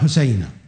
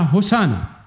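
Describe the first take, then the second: First: The word is pronounced like husayna. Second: The word is pronounced like hosanna. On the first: "ويمكن أن تقال حسينة" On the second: "لكنهم هم يلفظونها هوسانا"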